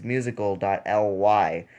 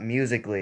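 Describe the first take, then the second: First: "musical dot L Y" with "dot" and the letters L and Y said separately; right way. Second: "Musical.ly" said as one word, "musically"; wrong way. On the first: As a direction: say "dot", then spell "L Y" letter by letter. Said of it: "it's musical dot L Y". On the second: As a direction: blend "Musical.ly" into a single word. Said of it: "it's not Musical.ly". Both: Shown as a demonstration.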